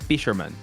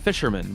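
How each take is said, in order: First: A pause separates the first letter from the rest. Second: It is said as one word without a pause. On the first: It is a person's name with an initial. "it's P Sherman. Like so" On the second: It names a person who catches fish. "he's saying fisherman"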